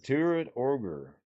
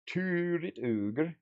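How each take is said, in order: First: Said in the usual way. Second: Higher, slow goofy ogre voice; drawn-out mock monster voice; playful ogre voice. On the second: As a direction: stretch it out like a silly ogre.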